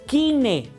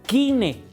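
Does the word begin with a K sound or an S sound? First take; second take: K sound; K sound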